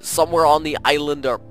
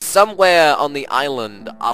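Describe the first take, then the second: First: It is read in a deep, heavily accented put-on voice. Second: It is read in a halting, oddly paced put-on voice.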